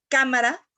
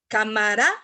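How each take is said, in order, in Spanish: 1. La sílaba tónica cae en la sílaba habitual. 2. La sílaba tónica cae en una sílaba desplazada. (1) "en lugar de decir cámara" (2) "señalan la sílaba tónica en un lugar donde no va"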